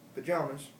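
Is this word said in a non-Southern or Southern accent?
Southern. Said in a general Southern accent. "with the general Southern accent"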